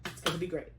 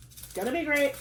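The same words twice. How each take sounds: First: Quiet doubtful. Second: Higher, upbeat and convinced; cheering herself up after a sigh; bright reassurance. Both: Real, not acted. Says it twice, differently.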